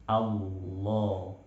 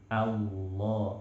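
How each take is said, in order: The two takes are said the same way.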